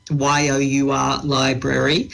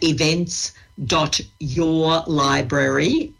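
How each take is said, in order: First: "Y O U R" said letter by letter, then "library"; spelled out. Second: "your library" drawn out very slowly; slow dictation. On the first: Spelling out part of web address. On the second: Dictating a web address for listeners. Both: Real, not acted.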